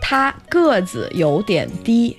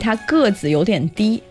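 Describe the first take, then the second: First: It is said more slowly. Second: It is said at normal speed.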